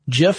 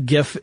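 First: The word begins with a soft j sound. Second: The word begins with a hard g sound. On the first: It names a peanut butter brand. The speaker calls it wrong. "GIF is a peanut butter" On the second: It names the graphic format. The speaker calls it right. "GIF is a graphic"

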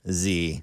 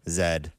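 First: The letter is said the American way, 'zee'. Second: The letter is said the Canadian way, 'zed'.

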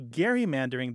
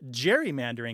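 First: The G is hard, as in 'go'. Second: The G is soft, as in 'gem'. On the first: This is how most people said it then. The speaker calls it wrong. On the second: This is how one person thought it should be said. The speaker calls it right.

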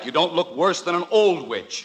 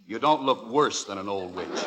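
First: The word 'worse' gets no stress. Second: The word 'worse' gets strong stress. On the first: "That sounds even more horrible" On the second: "Why do you emphasize worse?"

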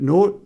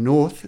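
First: The name is said the French way, without 'th'. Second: The name is said the English way, with 'th'. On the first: The speaker calls it wrong. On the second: The speaker calls it right.

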